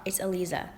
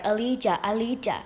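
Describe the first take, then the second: First: Aliza said with a clear buzzing z, uh-LEE-zuh; correcting the name. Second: Aliza said with zh, uh-LEE-zhuh, a bit higher; mispronounced name. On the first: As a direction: snap back the right Aliza with a crisp z. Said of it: "You illiterate fuck". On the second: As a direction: mimic the caller drawing out the zh in Aliza. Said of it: "he was like". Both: Retold or imitated.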